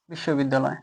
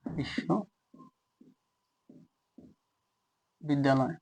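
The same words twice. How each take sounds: First: Said in the usual way. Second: Very slow, soft বিশ্ববিদ্যালয়, broken into parts with long pauses; লিখতে লিখতে উচ্চারণ. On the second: Shown as a demonstration. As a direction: say বিশ্ববিদ্যালয় piece by piece, as if writing it out. (বিশ্ববিদ্যালয় খুব ধীরে, থেমে থেমে, নিচু গলায়) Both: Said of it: "এই জায়গায় লিখি যে".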